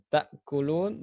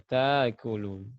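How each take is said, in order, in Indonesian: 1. Hentian glotis menutup suku kata pertama. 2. Hentian glotis dihilangkan dan vokalnya dipanjangkan. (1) "kenapa ini tertutup" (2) "sebagian ahli qiraat membaca"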